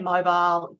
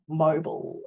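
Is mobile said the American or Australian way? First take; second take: Australian; American. First: It is said in an Australian accent. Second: It is said in an American accent. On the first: "I say mobile" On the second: "you guys say something like mobile"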